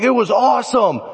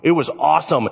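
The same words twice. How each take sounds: First: High-pitched, gushing retelling; excited boast. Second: Said in the usual way. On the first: Retold or imitated. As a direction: gush about the catch to your uncle. Retells his excitement to uncle.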